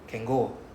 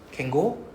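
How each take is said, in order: First: The pitch stays level at the end. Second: The pitch rises at the end. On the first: "the flat" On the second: "the rising"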